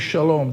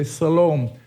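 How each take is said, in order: First: The word begins with an sh sound. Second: The word begins with an s sound. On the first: This is the Hebrew form of the word. "they don't say shalom" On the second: This is the Greek form of the word. "they say salom"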